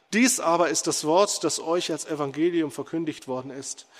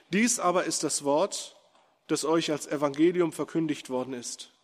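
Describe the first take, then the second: Both takes have the same delivery.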